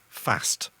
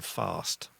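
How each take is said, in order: First: It is said in a Lancashire accent. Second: It is said in a non-Lancashire accent. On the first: "I say fast" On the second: "rather than fast"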